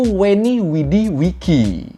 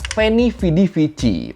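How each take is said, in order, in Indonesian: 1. Setiap kata diawali dengan bunyi W. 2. Setiap kata diawali dengan bunyi V.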